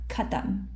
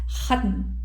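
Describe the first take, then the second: First: It begins with a plain hard k sound. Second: It begins with a raspy throat kh sound. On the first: The speaker calls it wrong. "It's not khatam, right? It's it's not the kaf" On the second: The speaker calls it right. "It's khatm"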